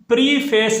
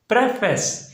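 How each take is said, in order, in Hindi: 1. पहला स्वर लंबी ee आवाज़ है। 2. पहला स्वर छोटी e आवाज़ है। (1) "इसको हम प्रीफेस नहीं पढ़ते" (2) "इसको हमने पढ़ना है प्रेफेस"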